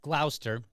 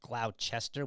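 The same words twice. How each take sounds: First: The E in the middle is nearly silent. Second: The E in the middle is pronounced. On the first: The speaker calls it right. "that E is kind of like almost silent there" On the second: The speaker calls it wrong. "I instinctively look at it, and I just want to say Gloucester"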